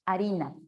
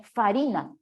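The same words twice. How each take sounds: First: "harina" with a silent h, said a-RI-na; modern harina. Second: "farina" said with a clear F at the start, fa-RI-na; old form "farina" with an audible F; Latin farina. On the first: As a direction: drop the sound at the start of "harina". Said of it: "ahora decimos harina". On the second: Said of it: "en el latín se decía farina". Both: Shown as a demonstration.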